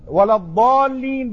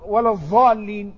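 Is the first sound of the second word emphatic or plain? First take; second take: emphatic; plain. First: The word starts with the emphatic dad sound. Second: The word starts with a plain non-emphatic sound. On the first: "ولا الضالين بالضاد" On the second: "رجل أعجمي لا يستطيع أن يقول ولا الضالين، قال ولا الضالين"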